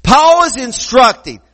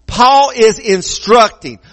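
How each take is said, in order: First: Said in the usual way. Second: Slow, weighted "Paul is instructing"; emphatic. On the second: Shown as a demonstration. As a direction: spell out "Paul is instructing" slowly and firmly. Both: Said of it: "let me emphasize this".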